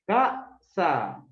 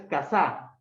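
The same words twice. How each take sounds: First: "Casa" split in two, first syllable punched; stress on first syllable. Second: "casa" with the final syllable punched; stress on last syllable. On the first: Teacher quizzes student on where the stress falls, first syllable stressed. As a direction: hit the first syllable of "Casa", then pause before the second. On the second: Teacher offers student the wrong option, last syllable stressed. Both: Shown as a demonstration. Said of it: "¿Primera o segunda?".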